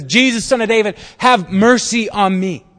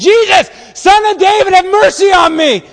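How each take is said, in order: First: First call. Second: Full-force, high-pitched desperate yell; belted scream. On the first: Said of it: "And so he says". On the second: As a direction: scream it at the top of your lungs. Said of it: "belted out of the top of his lungs". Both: Acted.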